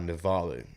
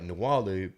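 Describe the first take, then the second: First: The middle consonant is a V sound. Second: The middle consonant is a W sound. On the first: The speaker calls it right. "So it's pronounced in a V sound" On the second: The speaker calls it wrong. "It sounds like Nawalu, but there's no W"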